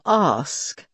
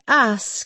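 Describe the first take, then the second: First: The vowel in 'ask' is long and broad. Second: The vowel in 'ask' is short and flat. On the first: "instead of ask" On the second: "you flatten your vowels. You say ask"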